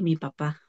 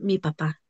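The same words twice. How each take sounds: First: It sounds reluctant and uncomfortable. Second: It sounds warm and affectionate. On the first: The relationship with the father is troubled. "me incomoda" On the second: The relationship with the father is healthy. "se nota el amor por la entonación"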